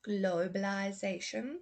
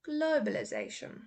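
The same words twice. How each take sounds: First: The -ize vowel sounds like 'eye'. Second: The -ize vowel sounds like 'uh'.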